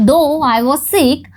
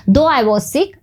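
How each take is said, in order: First: Very slow, each word separate; slow dictation. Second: Said in the usual way. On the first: Shown as a demonstration. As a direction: read "though I was sick" slowly for the class. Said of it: "teacher rereads example sentence". (बहुत धीरे, dictation की तरह) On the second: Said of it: "same sentence at normal speed".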